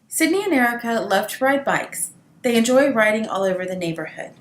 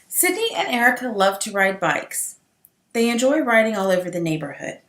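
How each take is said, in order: First: A medium pause separates the two clauses. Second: A long full-stop pause separates the two clauses. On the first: The two clauses are closely related. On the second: The two clauses are separate sentences.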